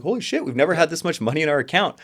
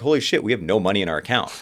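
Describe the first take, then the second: First: Much higher, louder gleeful exclamation; elated disbelief. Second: Quick, louder rueful exclamation; mock dismay. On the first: Retold or imitated. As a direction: squeal it like you just saw the bank balance. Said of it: "extreme excitement". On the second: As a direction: blurt it as the bank account hits zero. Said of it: "Two years later".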